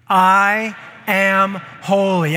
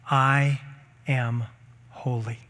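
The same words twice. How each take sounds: First: Slow, loud declaration; proclaimed. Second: Said in the usual way. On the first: Shown as a demonstration. Pastor leading church in loud declaration. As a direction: lead them, say it big. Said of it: "You ready?". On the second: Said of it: "I want you to say out loud".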